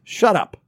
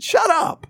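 First: A serious, cutting "Shut up"; blunt flat shut up. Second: "Shut up" pitched way higher, sing-song and teasing; a light joking "Shut up" between friends; playful joking shut up. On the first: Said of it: "It was". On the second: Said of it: "It wasn't". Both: Shown as a demonstration.

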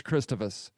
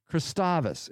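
First: Christovus with the middle vowel reduced; stress on first syllable. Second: Christovus with an open, stressed middle AH; stress on second syllable. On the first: Real, not acted. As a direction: say Christovus as CHRIS-tuh-vus, front-stressed. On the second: Shown as a demonstration. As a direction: say Christovus as kris-TAH-vus. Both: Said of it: "where this accent goes".

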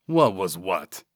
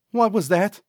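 First: Lightly gargled, falling reply. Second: Sidekick's high, rising question; high-voiced questioning. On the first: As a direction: play dumb in a gargly character voice. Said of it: "Vernal gargled". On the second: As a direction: ask it pitched well up, lifting at the end. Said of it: "Cecil asked". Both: A narrator's reading.

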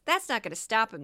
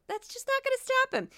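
First: Said in the usual way. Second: Much higher, put-on voice; high-pitched mock aside. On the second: Podcaster mocking a bogus expert's lack of training, high-pitched. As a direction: repeat it way up high, comically.

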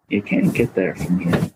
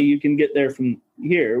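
First: New England accent. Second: Said in the usual way. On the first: Shown as a demonstration. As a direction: say it low like an old Maine local. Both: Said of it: "you gotta say it in the right accent".

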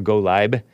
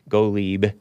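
First: Golib said as Go-lyb, ending like lie-b; name said two ways. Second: Golib said as Go-leeb, long ee; name said two ways. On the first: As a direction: Golib with the last syllable rhyming with tribe. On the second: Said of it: "or Golib". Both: Shown as a demonstration.

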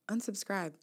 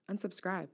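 Both takes have the same delivery.

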